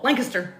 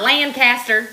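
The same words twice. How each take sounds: First: The name is said with fewer syllables. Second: The name is said with more syllables. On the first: The speaker calls it right. "it's one syllable" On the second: The speaker calls it wrong. "It's not Lancaster"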